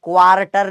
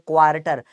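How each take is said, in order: First: The r sound is pronounced in the word. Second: The r sound is left silent in the word. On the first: The speaker calls it wrong. "क्वार्टर नहीं बोलते" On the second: The speaker calls it right. "आर silent होता है"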